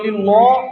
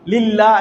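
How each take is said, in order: First: The double L is heavy and thick. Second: The double L is light and thin. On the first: The speaker calls it wrong. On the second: The speaker calls it right.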